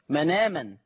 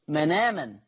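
First: The n runs straight into the vowel. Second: The n runs straight into the vowel.

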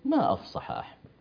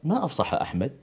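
First: It is said with admiring, exclamatory intonation. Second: It is said with questioning intonation. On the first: The speaker admires his eloquence. "لكن عندما أعجب به أقول" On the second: The speaker asks what was said. "أقول سؤال ما أفصح أحمد سؤال"

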